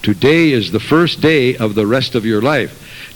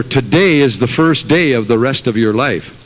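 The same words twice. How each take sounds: First: Slow, each word weighed, stress on first; deliberate slow restatement; slow emphatic repeat. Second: Said in the usual way. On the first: Shown as a demonstration. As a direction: let it sink in slowly. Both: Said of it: "And remember".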